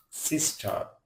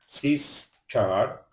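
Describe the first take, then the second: First: Said in the usual way. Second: sister broken as সিস, টার, slowly, ending on a rise; split into syllables. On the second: Shown as a demonstration. Teacher showing learners what a syllable is, split into syllables. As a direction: say sister in two separate beats, last one rising. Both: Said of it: "যতটুকু অংশ একসাথে উচ্চারণ করা".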